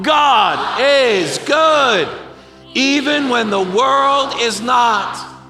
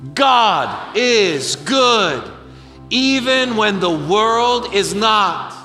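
First: It is said forcefully, with strong conviction. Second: It is said calmly, as a warm-up.

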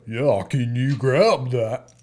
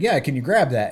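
First: It is a goofy English kid's fake American accent. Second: It is said in his natural American voice.

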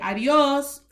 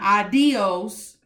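First: The stress falls on the last syllable. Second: The stress does not fall on the last syllable. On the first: The speaker calls it right. "the stress is the O" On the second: The speaker calls it wrong. "not adios"

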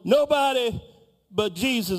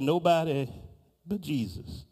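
First: It is said loudly with strong force. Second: It is mumbled quietly under the breath. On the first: "she picked it up a little more" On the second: "there was a mumbling in the back of the room. And the mumbling went something like"

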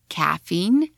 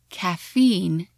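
First: The stress is on the first syllable. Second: The stress is on the last syllable. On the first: "in British English is" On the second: "in American"

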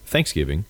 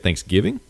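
First: The stress is on the first syllable. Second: The stress is on the second syllable. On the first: "I guess I'm a first syllable emphasizer" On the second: "they say Thanksgiving?"

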